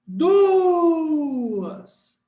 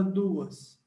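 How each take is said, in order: First: DUAS shouted high with a long held U; shout technique. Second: Said in the usual way. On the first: Shown as a demonstration. Teacher showing the hiatus in DUAS with a long U, shout technique. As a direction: call out DUAS, hanging on the U before the A. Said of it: "a técnica do grito". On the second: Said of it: "Quando a gente usa a técnica do grito".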